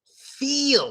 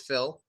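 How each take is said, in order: First: The vowel is long, as in 'beat'. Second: The vowel is short, as in 'bit'. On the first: "In Russian, they say feel" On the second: "Listen carefully"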